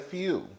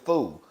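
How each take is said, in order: First: It is said as 'few', with a 'y' sound. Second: It is said as 'foo', without a 'y' sound. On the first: The speaker calls it right. "I could never say few" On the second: The speaker calls it wrong. "I used to always say foo"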